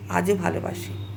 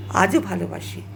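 The two takes are said the same way.

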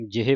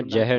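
First: ਜਿਹੇ with an i after j; short i vowel. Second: ਜਹ with no i, like "jah"; wrong vowel. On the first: Teacher models the correct ਜਿਹੇ, with short i. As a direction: say ਜਿਹੇ as "jihe". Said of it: "ਜਿਹੇ ਪੜ੍ਹਨਾ". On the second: Teacher warns students off ਜਹ, said without the i. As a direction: say ਜਹ with an open vowel after j. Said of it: "ਜਹ ਨਹੀਂ ਪੜ੍ਹਨਾ". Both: Shown as a demonstration.

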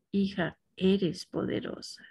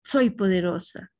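First: Softer, tender "Hija, eres poderosa" as if from a parent; gentle "Hija" with a falling, softer "eres poderosa"; heartfelt parental blessing. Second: Said in the usual way. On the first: Shown as a demonstration. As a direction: bless her like a loving mother would. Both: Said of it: "sí notan ustedes la diferencia".

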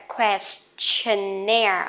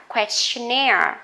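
First: Questionnaire very slow, with a hissed "st" in Quest; hissed quest sound. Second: Questionnaire at natural pace, stress on -naire; normal speed word. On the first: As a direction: push air out on the st of Questionnaire. (đọc thật chậm Questionnaire, xì hơi ở âm st) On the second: (đọc Questionnaire tốc độ thường) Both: Shown as a demonstration. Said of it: "Mình phải xì ra một cái".

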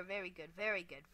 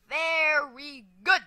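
First: Said in the usual way. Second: Slow, loud, stretched "very good"; emphatic praise. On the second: Real, not acted. Player praising own run, slow emphatic praise. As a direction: draw out "very", then punch "good" loudly.

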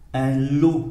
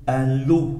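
The two takes are said the same way.

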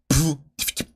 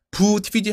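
First: Percussive beatbox kick and hi-hats; beatbox it, shutting the lips right after; beatbox drum sounds. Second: Said in the usual way. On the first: Shown as a demonstration. Teacher demonstrates closing the mouth straight after, crisp beatbox. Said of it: "입을 바로 다물어야 돼요". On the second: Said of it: "하고 바로 다물어야 돼요".

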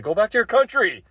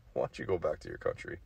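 First: Much higher and louder yell; mock shout. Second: Quiet, quick and offhand; mock quiet jab. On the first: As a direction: explode into the punchline. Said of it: "I'm like". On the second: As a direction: toss it off softly, half laughing.

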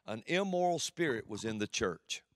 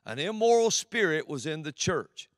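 First: Said in the usual way. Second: "immoral" hit hard, louder repeat; stressed and louder. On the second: Shown as a demonstration. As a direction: drive home "immoral". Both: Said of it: "repeated with force".

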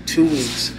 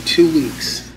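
The two takes are said the same way.

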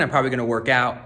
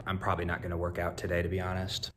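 First: Said in the usual way. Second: Softer quick confession; quiet aside. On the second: Real, not acted. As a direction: mutter the honest truth. Quiet honest correction.

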